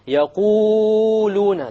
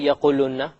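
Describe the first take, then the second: First: The long vowels are stretched well beyond two counts. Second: The long vowel is cut short. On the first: "it's a mistake to make it longer than two" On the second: "You don't say"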